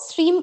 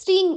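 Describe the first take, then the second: First: The word ends with a closed m sound. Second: The word ends with a nasal ng sound. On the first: The speaker calls it wrong. "স্ট্রিম উচ্চারণ না করে" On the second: The speaker calls it right. "স্ট্রিং উচ্চারণ করবে"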